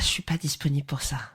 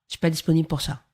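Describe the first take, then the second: First: It is said with a smile in the voice. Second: It is said without a smile in the voice.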